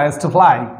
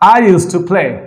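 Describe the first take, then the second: First: 'Play' sounds closer to 'ply', foreign-style. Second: 'Play' has a plain, local-style vowel.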